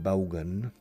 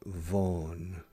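First: The first consonant is not a buzzing V. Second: The first consonant is a buzzing V. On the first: The speaker calls it wrong. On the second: The speaker calls it right.

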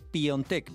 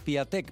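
First: The name has an 'on' sound after the 'pi'. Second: The name has a plain 'ia' with no 'on'. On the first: The speaker calls it right. "porque se dice Piontek" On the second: The speaker calls it wrong. "Ya no diré más Piatek"

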